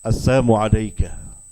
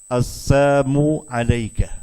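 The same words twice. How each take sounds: First: The greeting is said quickly and run together. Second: The greeting is said slowly and deliberately. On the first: "dia cepat" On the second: "kalau pelan-pelan"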